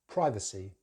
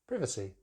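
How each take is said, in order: First: American accent, first vowel is an 'eye' sound. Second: British accent, first vowel is a short 'i'. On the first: "They use the I diphthong" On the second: "But in British English"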